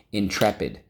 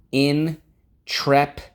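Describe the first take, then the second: First: Said in the usual way. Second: High, loud and slow, savouring "Intrepid"; dramatic stretched intrepid. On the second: Shown as a demonstration. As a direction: boom out "Intrepid" slowly like a grand title.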